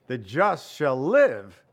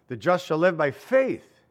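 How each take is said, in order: First: "The just shall live" slow, with "live" pressed hard; stress on live. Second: "The just shall live by faith" with the weight on "faith"; stress on faith. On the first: Preacher showing the Galatians reading, stress on "live". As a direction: hit "live" and let it ring. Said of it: "the accent is on live". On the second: Preacher showing the Hebrews reading, stress on "faith". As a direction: land hard on "faith". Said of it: "where the emphasis is on faith". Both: Shown as a demonstration.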